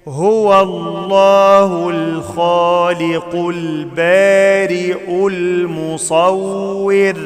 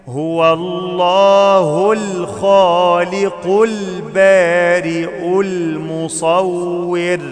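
Both takes have the same delivery.

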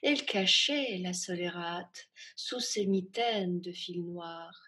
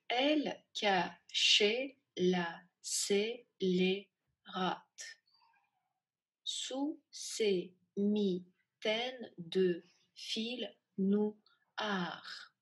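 First: It is read smoothly at a medium pace. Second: It is read slowly, one syllable at a time. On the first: "Сначала буду читать в среднем ритме"

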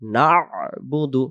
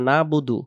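First: A throaty consonant is sounded before 'budu'. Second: The throaty consonant before 'budu' is left out. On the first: The speaker calls it right. "শুদ্ধ উচ্চারণ হবে নুন আইন জবর" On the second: The speaker calls it wrong. "তাহলে এই আইন অক্ষর আবার বাদ চলে গেছে"

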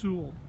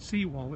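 First: The name sounds like 'sue-ell'. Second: The name sounds like 'sea wall'. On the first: The speaker calls it right. "it's Sewell" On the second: The speaker calls it wrong. "the fella pronounced it as Seawall. Well, it's not Seawall"

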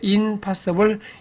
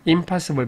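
First: An n sound comes before the p. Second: An m sound comes before the p. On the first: The speaker calls it wrong. "원래는 in인데" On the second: The speaker calls it right. "impossible이 편하죠"

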